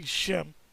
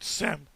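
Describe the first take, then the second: First: The word begins with a sh sound. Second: The word begins with a plain s sound. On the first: The speaker calls it right. "It's actually Shem" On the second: The speaker calls it wrong. "which is a made-up word"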